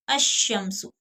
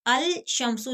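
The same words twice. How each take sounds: First: अशम्सु with doubled sh, no l; ash-shamsu, lam merged; lam hidden. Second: अल शम्सु with a clear l; wrong al pronounced. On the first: (अशम्सु, लाम छुपाकर) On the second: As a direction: sound the lam in अल शम्सु as the mistake. (अल शम्सु, लाम बोलकर (ग़लत)) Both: Shown as a demonstration. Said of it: "अल शम्सु नहीं पढ़ेंगे".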